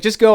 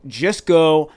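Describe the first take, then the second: First: Higher, louder urgent push; emphatic. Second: Said in the usual way. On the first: Retold or imitated. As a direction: insist he just go. Boss voiced in story, emphatic.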